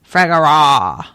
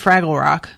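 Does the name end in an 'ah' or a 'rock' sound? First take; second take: ah; rock. First: The name ends in an open 'ah' sound. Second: The name ends in a 'rock' sound. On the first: This is the pronunciation heard in the audiobook. "according to the audiobook, it's apparently Fragara, like Tada" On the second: This is the pronunciation the reader keeps using. "I'm still saying Fraggle Rock"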